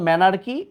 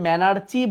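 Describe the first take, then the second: First: The word is said with a k sound. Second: The word is said with a ch sound. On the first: The speaker calls it right. "But উচ্চারণ ম্যানার্কি" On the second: The speaker calls it wrong. "এটাকে আবার আগের বইয়ে ম্যানার্চি বলতো"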